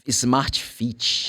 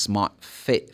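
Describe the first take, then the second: First: The vowel in fit is long. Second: The vowel in fit is short. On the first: The speaker calls it wrong. "No, we are going to see that's not that" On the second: The speaker calls it right. "This is the short I"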